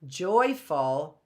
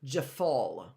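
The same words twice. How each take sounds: First: "Joyful" with JOY stressed; first-syllable stress. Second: "joyful" said juh-FULL, reduced first syllable; second-syllable stress. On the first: Teacher showing which part is stressed, "Joyful" with front stress. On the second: Teacher showing misplaced stress, "joyful" stressed on FUL. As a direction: swallow the JOY and stress the end of "joyful". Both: Shown as a demonstration. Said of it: "what part of the word is stressed".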